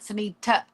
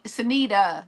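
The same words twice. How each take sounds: First: The middle consonant is a T sound. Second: The middle consonant is a D sound. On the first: The speaker calls it wrong. "not a T" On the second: The speaker calls it right. "it's with a D"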